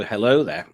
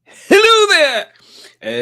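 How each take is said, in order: First: Said in the usual way. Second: Very high, loud, long-drawn "hello there"; catchphrase call. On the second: Acted. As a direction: belt out the greeting, stretched right out. Mimics the catchphrase after the clip.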